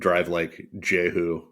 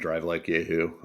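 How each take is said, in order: First: The last word begins with a J sound. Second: The last word begins with a Y sound. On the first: The speaker calls it wrong. "I've been pronouncing it Drive Like Jehu" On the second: The speaker calls it right. "didn't know it was pronounced Drive Like Yahoo"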